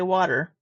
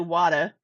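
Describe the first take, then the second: First: The word is said with careful, clear enunciation. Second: The word is said in a Boston accent. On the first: This is how the speaker normally says it. "I say water. I enunciate" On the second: This is how others say it, not the speaker. "I don't say water. I'm not from Boston"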